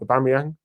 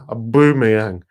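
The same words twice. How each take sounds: First: The name is said plainly, without the accent. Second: The name is said in an exaggerated accent. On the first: The speaker calls it right. "actually said the name right as well" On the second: The speaker calls it wrong. "Making an African noise and that"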